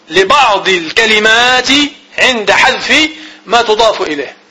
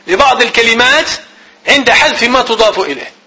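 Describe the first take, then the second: First: Slow, word by word, for note taking; dictating pace; slow dictation. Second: Said in the usual way. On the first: Shown as a demonstration. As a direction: spell the definition out slowly so students can write. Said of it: "teacher dictating the definition slowly". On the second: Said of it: "the same definition repeated at normal pace".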